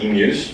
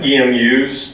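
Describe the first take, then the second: First: It is pronounced as a single word. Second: It is spelled out as separate letters. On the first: The speaker calls it wrong. "are not E M Us" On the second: The speaker calls it right. "acronyms that you don't pronounce"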